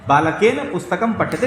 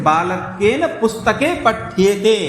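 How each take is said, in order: First: Said in the usual way. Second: पठ्येते stretched out syllable by syllable, slowly; slow right down on पुस्तके and draw out पठ्येते; stress on dual endings. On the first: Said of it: "अब द्विवचन बोला". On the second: Shown as a demonstration. Teacher showing students the dual form, drawn-out stressed endings. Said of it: "पुस्तके में द्विवचन बोला".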